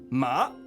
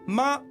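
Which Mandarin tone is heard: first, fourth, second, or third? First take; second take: second; first. First: The pitch rises from mid to high. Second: The pitch stays high and level. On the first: It means cloth. "ça veut dire tissu" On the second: It means mother. "ça veut dire mère"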